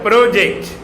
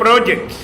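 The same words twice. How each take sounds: First: The stress is on the second syllable. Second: The stress is on the first syllable. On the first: It names an action, a verb. "a stress takes place in the middle" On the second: It names a thing, a noun. "project is noun"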